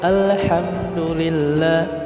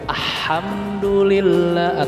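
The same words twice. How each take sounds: First: The L is pronounced clearly before the H. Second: The L merges into the following H sound. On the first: The speaker calls it right. "atau tidak" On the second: The speaker calls it wrong.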